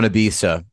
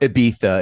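First: Ibiza is said with a plain English pronunciation. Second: Ibiza is said with a put-on Spanish pronunciation.

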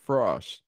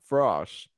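First: The vowel is an open 'aw' sound. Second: The same.

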